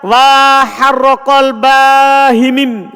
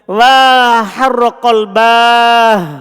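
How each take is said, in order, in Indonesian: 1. Setelah h terakhir ada vokal i. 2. Tidak ada vokal setelah h terakhir. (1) "Dan boleh juga antum kasro" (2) "Seharusnya kan sukun"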